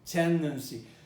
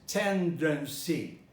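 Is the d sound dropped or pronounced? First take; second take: dropped; pronounced. First: The d sound after n is dropped. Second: The d sound after n is clearly pronounced. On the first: "when the D appears after an N, what happens? It disappears" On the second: "you could eventually pronounce the word tendency as tendency"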